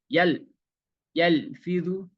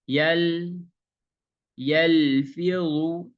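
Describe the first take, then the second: First: The L sound is cut off abruptly. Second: The L sound is held smoothly, not cut off. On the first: The speaker calls it wrong. "Kalau yang salah" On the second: The speaker calls it right. "Jadi baca lam seperti ini"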